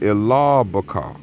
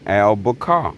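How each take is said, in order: First: The name is said with an Arabic pronunciation. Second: The name is said with an English pronunciation. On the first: "In our Arabic pronunciation" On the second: "in English pronunciation"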